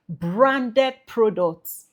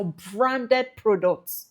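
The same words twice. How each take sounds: First: Branded products drawn out very slowly; emphasis on Branded products. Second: Said in the usual way. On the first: Shown as a demonstration. Coach clarifying which goods need registration, emphatic. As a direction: stretch out each word of Branded products for emphasis. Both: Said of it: "Emphasis on branded products".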